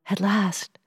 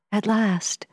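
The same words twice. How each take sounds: First: Said in the usual way. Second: Breathless whisper to oneself; whispered thought. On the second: A narrator's reading. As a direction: whisper it in awe. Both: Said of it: "I thought".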